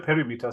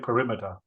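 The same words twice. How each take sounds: First: The first syllable sounds like 'peh'. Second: The first syllable sounds like 'puh'. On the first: The speaker calls it wrong. "Don't say perimeter. ... Don't say P E" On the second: The speaker calls it right. "Say perimeter. ... pronounce it there's a U"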